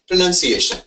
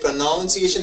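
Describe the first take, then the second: First: The second syllable sounds like 'nun'. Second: The second syllable sounds like 'noun'. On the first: The speaker calls it right. "It's none N U N. Yeah. Pronunciation. Right" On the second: The speaker calls it wrong. "lot of them say pronunciation. There is no noun in that"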